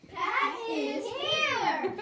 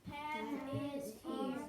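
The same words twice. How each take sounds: First: It is said excitedly, as an exclamation. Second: It is said calmly, as a plain statement.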